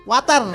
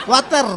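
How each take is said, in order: The two takes are said the same way.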